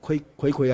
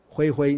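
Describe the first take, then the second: First: Each syllable begins with a k sound. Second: Each syllable begins with an h sound. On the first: "念葵葵还是灰灰" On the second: "灰灰，你们念灰灰的"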